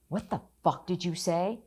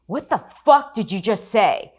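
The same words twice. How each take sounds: First: Said in the usual way. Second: High, loud confrontation, hitting fuck hard; furious shout. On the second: Retold or imitated. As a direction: get in their faces and demand it. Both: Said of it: "that's when I lost it".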